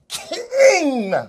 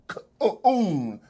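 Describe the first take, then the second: First: The word ends with an ng sound. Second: The word ends with an uh-n sound. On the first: The speaker calls it right. "is K I N G, King" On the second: The speaker calls it wrong. "like that buffoon uh, tried to say it, it was a mispronunciation"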